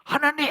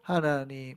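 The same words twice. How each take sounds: First: It is said in an intense, fervent way. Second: It is said in a flat, half-hearted way.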